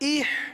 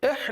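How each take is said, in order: First: The vowel sounds like 'ih'. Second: The vowel sounds like 'eh'. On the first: The speaker calls it right. "जेर की आवाज इह" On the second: The speaker calls it wrong. "एह नहीं, एह तो ये मजहूल हो जाएगा"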